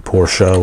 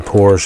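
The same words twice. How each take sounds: First: It is said the way non-Americans say it. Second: It is said the common American way. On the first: "Outside of America, you say Porsche, which is technically the correct pronunciation" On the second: "As most people in America say Porsche"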